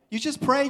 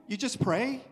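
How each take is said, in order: First: Higher and louder on pray; emphatic repeat. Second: Said in the usual way. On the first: Shown as a demonstration. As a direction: drive the answer home. Answer repeated, second louder.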